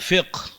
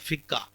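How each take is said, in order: First: It has a deep q and ends in 'h'. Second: It has a doubled k and ends in 'a'. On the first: The speaker calls it right. "सही तलफ़ुज़ क्या है?" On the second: The speaker calls it wrong. "गलत आम होकर आम बोली पर में जो बोलते हैं"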